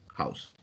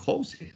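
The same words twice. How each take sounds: First: It is read with English pronunciation. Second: It is read letter by letter, as spelled. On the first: The speaker calls it right. "lees house" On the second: The speaker calls it wrong. "no lees house"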